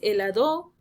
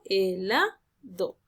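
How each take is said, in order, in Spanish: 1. El acento cae en una sílaba distinta de la central. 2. El acento cae en la sílaba central. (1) "No es helado" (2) "la sílaba tónica recae sobre la sílaba la"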